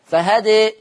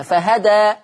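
First: فهدى ending tilted toward e; with taqlil. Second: فهدى ending on open a; with fatha. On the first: Teacher showing callers how to stop on فهدى with taqlil. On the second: Teacher showing callers how to stop on فهدى with fatha. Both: Shown as a demonstration. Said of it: "عايز الناس تقف عليها".

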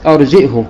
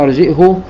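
First: "أرجئه" with a glottal stop and short final u; hamza, short damma. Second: "أرجئه" with a glottal stop and long final uu; hamza, damma with silah. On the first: Teacher demonstrating Abu Amr's reading, "أرجئه" with short unlinked u. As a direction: say "أرجئه" as arji'hu. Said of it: "مع ضم الهاء". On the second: Teacher demonstrating Ibn Kathir's reading, "أرجئه" ending in long u. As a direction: say "أرجئه" as arji'huu. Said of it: "بالهمزة مع ضم الهاء مع الصلة". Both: Shown as a demonstration.

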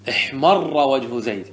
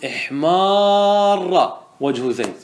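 First: احمر with a short a and firmly doubled ra, slowish; no long vowel in احمر, just the double r; without alif. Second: احمر said as ihmaaarra, the aa held very long; with alif, hugely stretched. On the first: Teacher shows increased redness, short a and doubled ra in احمر. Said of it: "بدون ألف". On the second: Teacher shows Zayd's extreme blush, very long held aa in احمر. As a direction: draw out the maa in احمر to show extreme intensity. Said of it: "بالألف، فتقول". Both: Shown as a demonstration.

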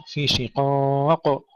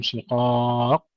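First: "شقاق" recited slowly, final qaf lightly bounced, not doubled; qalqalah tanpa tasydid. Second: "شقاق" with the final qaf doubled before its bounce; mistaken doubled qaf. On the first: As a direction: end "شقاق" on a single echoed qaf. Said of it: "ننتبه ألا نشدد القاف". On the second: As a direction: press and hold the last qaf of "شقاق", then echo it. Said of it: "يشددون قبل القلقلة". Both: Shown as a demonstration.

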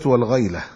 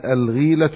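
First: والغيلة said "wal-ghayla", ay after gh; والغيلة with fatha, as wal-ghayla; fatha on the ghayn. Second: الغيلة said "al-gheelatu", long ee after gh; الغيلة with kasra, as al-ghīlatu; kasra on the ghayn. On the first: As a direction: give والغيلة an ay diphthong. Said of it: "بفتح الغين". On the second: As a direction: give الغيلة an ee vowel. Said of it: "الغيلة هنا بكسر الغين". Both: Shown as a demonstration.

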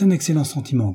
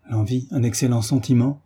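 First: Said in the usual way. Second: Mildly astonished echoed question; a touch of stunned disbelief, ending on a rise; stupefied exclamation. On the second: A narrator's reading. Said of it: "s'écria Frédéric ... avec stupeur".

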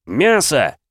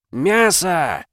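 First: Loud, high roared answer; roaring yell. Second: Chanted, loud, high frenzied crowd roar; chanted, bellow it like an ecstatic crowd. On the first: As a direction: roar it at the crowd. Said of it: "заорал я". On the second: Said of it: "завопила исступлённо публика". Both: Acted.

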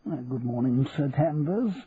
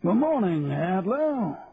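First: Lightly voiced polite bank manager; restrained, respectful reply; deferential manager. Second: High, drawn-out officer's greeting; plummy colonel sailing in; hearty colonel. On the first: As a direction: return the greeting politely, lifting at the end. Manager answers the Colonel. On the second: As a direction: hail the bank manager in a high hoot. Colonel greets manager on marching in. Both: A narrator's reading.

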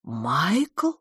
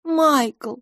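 First: Astonished rising question; gasped. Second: High voice with falling tone on Майкл; gently name him, pitched high; soft. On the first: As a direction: gasp the name, sliding upward in disbelief. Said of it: "ахнула мисс Петтигрю". (ахнув, с изумлённым вопросом) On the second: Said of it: "мягко сказала мисс Лафос". (мягко, высоко, с нисходящей интонацией) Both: A narrator's reading.

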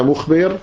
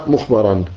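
First: مخبر said mukhbir, ending in -bir; active participle vowel. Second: مخبرا said mukhbaran, with a after the b; passive participle vowel. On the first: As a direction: say مخبر with kasra on the ba. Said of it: "أو اسم فاعل". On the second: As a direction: say مخبرا with fatha on the ba. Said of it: "يعني إما اسم مفعول". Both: Shown as a demonstration.

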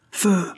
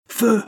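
First: High shouted order; infantry officer repeating the order, shouted; repeated command. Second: Sharp, very high, loud order; captain ordering the marines to fire, shouted; shouted command. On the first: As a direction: echo the order to fire. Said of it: "répéta l'officier d'infanterie". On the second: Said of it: "commanda le capitaine". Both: A narrator's reading.

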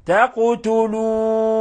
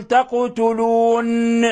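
First: تقتلون ending on a gently stilled nun, no ringing; correct, gentle nun stop; soft stop on the nun. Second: تقتلون with the final nun pressed and buzzed as if bounced; deliberately wrong: ring out the nun of تقتلون; faulty tajweed nun twang. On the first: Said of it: "وتقف عليها بالسكون بتلطف". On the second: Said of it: "كأنك تقلقلها". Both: Shown as a demonstration.

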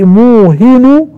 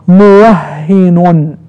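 First: موهن slowly as muuhinu, higher; no doubling in موهن. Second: موهن very slowly as muwahhinun; doubled h in موهن. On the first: Teacher recapping the second reading, undoubled slow موهن. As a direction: stretch the long u of موهن, single h. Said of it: "يعني بدون تشديد". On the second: Teacher recapping the first reading, stretched doubled h in موهن. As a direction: draw out the shadda and final -un of موهن. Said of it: "بالتشديد". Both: Shown as a demonstration.

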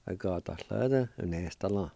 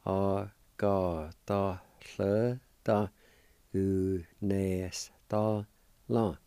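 First: Said in the usual way. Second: "A ga da lle da u nes da la" drawn out slowly, each syllable separate; slow Cherokee pronunciation. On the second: Shown as a demonstration. Teacher sounding out the Cherokee word for ice cream slowly. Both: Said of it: "And together".

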